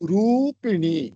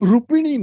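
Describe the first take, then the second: First: The first vowel is long. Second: The first vowel is short. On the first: The speaker calls it right. "ரூ அது நெடில்" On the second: The speaker calls it wrong. "நை"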